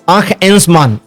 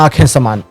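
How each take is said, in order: First: The name's parts are said separately. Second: The name's parts are run together smoothly. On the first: The speaker calls it right. "आंख एंस मान वो ये है" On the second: The speaker calls it wrong. "गलत नाम है, pronunciation गलत हो गया"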